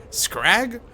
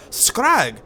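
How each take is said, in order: First: Said in the usual way. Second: Scrag? asked high in an Irish lilt; Irish voice, puzzled and higher on Scrag?; Scrag? with rising Irish disbelief; Irish accent. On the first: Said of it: "Hold on, I gotta get Irish". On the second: Acted. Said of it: "I gotta get Irish".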